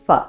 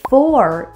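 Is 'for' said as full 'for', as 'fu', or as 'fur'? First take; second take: fu; for. First: The vowel is reduced with no final r. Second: The word is said fully with its vowel. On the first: "Or sometimes people might say fu" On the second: "For is reduced to fur"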